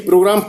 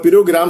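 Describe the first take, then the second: First: The opening consonants are said together, without an extra vowel. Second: Extra vowels break up the opening consonant cluster. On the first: The speaker calls it right. "पांच हरफी है" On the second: The speaker calls it wrong. "सात हरफी हो जाता है"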